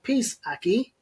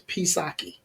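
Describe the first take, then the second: First: There is a break between the two parts. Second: It is run together as one word. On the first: It means peace, brother. The speaker calls it right. "did he just slow it down?" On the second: It is taken as a single greeting word. The speaker calls it wrong. "we thought of one word"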